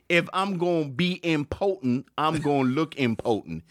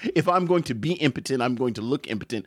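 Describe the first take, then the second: First: 'Going to' is reduced to a casual 'gonna'. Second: 'Going to' is pronounced fully and carefully. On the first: The speaker calls it right. "is actually the joke" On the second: The speaker calls it wrong. "Doesn't make any sense"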